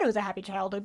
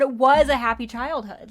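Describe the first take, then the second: First: Said in the usual way. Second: "was" punched out loud; stress on WAS. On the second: Real, not acted. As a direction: insist firmly on the word "was". Insists, correcting the hypothetical.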